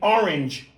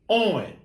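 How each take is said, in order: First: The word is said with two syllables. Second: The word is squeezed into one syllable. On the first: The speaker calls it right. "It's a two syllable word" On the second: The speaker calls it wrong. "that you reduce to one"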